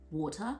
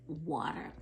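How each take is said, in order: First: Water is said in a South African accent. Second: Water is said in an American accent.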